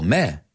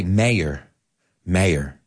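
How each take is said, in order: First: "mayor" as a single r-less meh; British one syllable. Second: "mayor" as MAY-er, r sounded; American two syllables. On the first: Teacher showing how they say it, "mayor" as meh. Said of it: "they say it as one syllable". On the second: Teacher showing how we say it, "mayor" as MAY-er. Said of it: "We say". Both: Shown as a demonstration.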